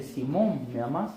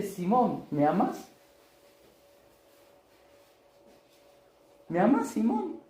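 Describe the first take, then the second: First: Said in the usual way. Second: Higher, drawn-out tender asking; pleading question. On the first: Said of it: "Y él le dice". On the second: Acted. Jesus asks Simon as an equal whether he loves him, rising and pleading. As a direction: ask as an equal, almost begging. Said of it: "Lo trata como igual a igual".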